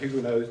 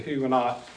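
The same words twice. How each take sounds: First: The word has a French-style pronunciation. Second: The word has an American English pronunciation. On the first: "French pronunciation"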